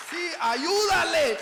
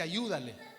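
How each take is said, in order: First: Much higher, louder, slower, with a laugh; laughing incredulous shout; amazed loud repeat. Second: Said in the usual way. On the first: Retold or imitated. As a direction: shout the order back, half laughing. Repeats the command in disbelief.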